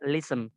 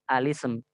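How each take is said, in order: First: It begins directly with the l sound. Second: It begins with a vowel before the l. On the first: "cara yang kedua itu kita boleh baca lism" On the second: "dia hanya dibaca langsung ke sin"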